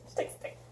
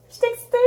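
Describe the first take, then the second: First: Whispered, barely audible; hushed excitement. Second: Very high excited squeak. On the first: Vlogger to herself over the next item, whispered excitement. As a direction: whisper your excitement to yourself. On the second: Vlogger to viewers over the next item, high-pitched excitement. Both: Real, not acted.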